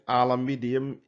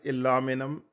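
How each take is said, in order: First: It is said with five syllables, including an extra 'i'. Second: It is said with four syllables, without the extra 'i'. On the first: "is a British one" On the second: "American pronunciation"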